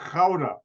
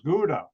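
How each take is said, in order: First: It starts with a throaty, rasping sound. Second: It starts with a hard G sound. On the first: The speaker calls it right. "That's not how the Dutch pronounce the G. It's pronounced Gouda" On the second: The speaker calls it wrong. "it's pronounced by Americans Gouda"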